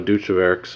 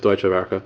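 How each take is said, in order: First: The last word ends with an s sound. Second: The last word ends with a vowel sound. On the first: The speaker calls it wrong. "some pretty creative pronunciations" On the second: The speaker calls it right. "but it's Deutsche Werke"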